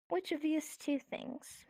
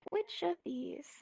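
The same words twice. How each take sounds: First: Slow, drawn-out weighing of two options; slow musing. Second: Whispered, musing question. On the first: Teacher slowly weighs two things for the class, musing. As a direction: draw the question out slowly. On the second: Teacher whispers the choice to the class, musing. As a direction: breathe the question to yourself. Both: Shown as a demonstration.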